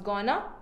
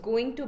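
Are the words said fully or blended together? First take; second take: blended; fully. First: The two words are blended into one reduced word. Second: The two words are said fully and separately. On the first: The speaker calls it wrong. "That is blending the two words" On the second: The speaker calls it right. "Going to becomes gonna"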